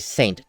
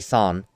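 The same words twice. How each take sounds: First: Saint is pronounced with an English sound. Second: Saint is pronounced with a French sound. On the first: The speaker calls it wrong. "they don't say Saint" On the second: The speaker calls it right. "French, they say Saint"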